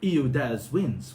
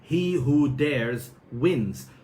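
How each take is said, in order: First: The h sounds at the word starts are dropped. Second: The h sounds at the word starts are pronounced. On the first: "this is some Cockney English" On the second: "which is"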